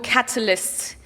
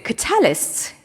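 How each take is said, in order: First: The stress falls in the usual place. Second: The stress falls in an unusual place.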